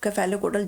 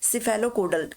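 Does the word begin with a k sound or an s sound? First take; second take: k sound; s sound. First: The word begins with a k sound. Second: The word begins with an s sound.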